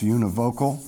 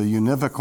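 First: Univocal with a long o, yoo-nih-VOH-kul; univocal, alternative pronunciation. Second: Univocal stressed on the second syllable, yoo-NIV-uh-kul; univocal, usual pronunciation. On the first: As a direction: say univocal as "uni-VOCAL". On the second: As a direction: say univocal as "you-NIV-ocal", short i. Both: Shown as a demonstration. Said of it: "or sometimes pronounced univocal".

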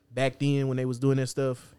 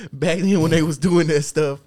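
First: Said in the usual way. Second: Louder, slower and higher, stretched out for effect; hammed-up emphatic repeat. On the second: Repeating his point to the podcast crew, hammed-up and loud. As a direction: lean on it like a mock preacher. Mock repeat after laughing.

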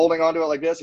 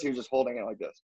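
First: Higher pitch, stress on "holding onto"; firm emphasis. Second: Much softer, "just holding" played down; soft understatement. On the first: Showing friends the grip it wasn't, firmly emphatic. Contrasting a tight grip with a loose one. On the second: Showing friends the gentler grip, softly understated. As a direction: drop the volume on "just holding it". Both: Shown as a demonstration.

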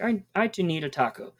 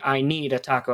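First: "I, I to need a taco" with a halting restart on "I", pitched higher; awkward literal translation. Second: Said in the usual way. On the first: Shown as a demonstration. Teacher showing a student the clumsy word-for-word version, awkwardly higher. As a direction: stumble on "I", then lift "to need" as an odd extra piece. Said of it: "I'm saying, like". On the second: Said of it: "Instead of saying".

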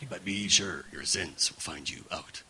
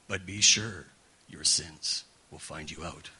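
First: Low, solemn doom voice; ominous plaque voice. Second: Low, slow, solemn doom voice; ominous plaque voice. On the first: Preacher repeating the plaque in its low ominous tone. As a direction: read it as a looming threat. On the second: Preacher recalling grandma's plaque in a low ominous voice. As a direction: intone it like a looming warning. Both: Retold or imitated. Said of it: "I was always in that tone".

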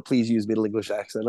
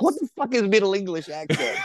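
First: Said in the usual way. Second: Much higher, baffled disbelief; mock outrage at an absurd request; incredulous. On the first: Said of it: "I get the audition that goes". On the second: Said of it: "I'm like".

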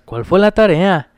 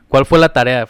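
First: Lento y cantadito, imitando Guanajuato; cántalo despacio como en Guanajuato; acento de Guanajuato. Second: Said in the usual way. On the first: Retold or imitated. (imitando el acento cantadito de Guanajuato) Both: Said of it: "Me decían así".

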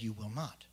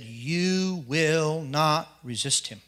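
First: Quiet, low "You will not."; hushed divine command. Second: Slow, weighty divine command; solemn voice of God. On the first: God quietly repeats the command to the speaker, hushed. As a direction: murmur the command, very soft. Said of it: "He said". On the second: God commands him not to fight the big man, slow and solemn. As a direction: lay down God's word slowly and gravely. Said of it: "And he said". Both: Retold or imitated.

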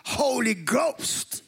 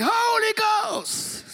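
First: "Holy Ghost" stretched out slowly, "holy" lifted; drawn-out Holy Ghost. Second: "Holy Ghost" bellowed, much higher and slowed right down; house-shaking shout. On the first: Dad insisting on the old phrase, slow stressed "Holy Ghost". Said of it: "He says". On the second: Dad proclaiming in church, booming "Holy Ghost" shout. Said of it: "he would have shook the house". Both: Retold or imitated.

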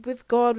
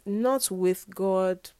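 First: Correcting herself, God stressed and louder. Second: Not leaned on, slow; slow, firm denial with not stressed. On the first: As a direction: punch the word God to correct yourself. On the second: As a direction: hit not, then drag on. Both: Shown as a demonstration. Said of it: "but, like".

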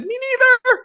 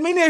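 First: Much higher, louder squeal of joy; squeaky disbelief. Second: Said in the usual way. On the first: Retold or imitated. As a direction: squeak it out, overwhelmed. Retold emotional reply, squeaked.

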